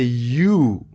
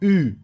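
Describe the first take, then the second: First: The letter is said with its English sound. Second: The letter is said with its French sound. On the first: The speaker calls it wrong. "Don't say U" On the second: The speaker calls it right. "Say U"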